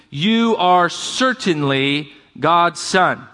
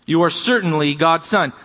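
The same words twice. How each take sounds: First: Each word drawn out slowly; slow, weighty reading. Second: Said in the usual way. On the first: Shown as a demonstration. Pastor reading the disciples' confession, slow and solemn. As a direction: lean on every word of the confession.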